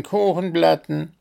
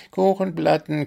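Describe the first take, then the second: First: High chant, a bit louder; chorus calling again. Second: High group chant; chorus calling. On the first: The animal chorus repeating its call to the gnome, chanting. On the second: The animal chorus calling out to the gnome, chanting. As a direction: call it out like a crowd of animals. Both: A narrator's reading. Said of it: "der bunte Chor hinter ihm rief".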